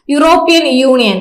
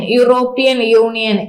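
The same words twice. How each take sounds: First: Said in the usual way. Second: A slow teacher's repetition of European union; slow repeat for memory. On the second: Shown as a demonstration. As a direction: drill "European union" slowly so students memorise it. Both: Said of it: "E U എന്ന് ഓർത്തു വയ്ക്കുക".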